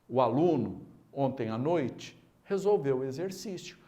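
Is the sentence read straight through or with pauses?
with pauses. It is read with pauses around the middle phrase.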